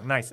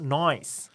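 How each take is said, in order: First: It is said in a plain, non-Australian way. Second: It is said in an Australian accent.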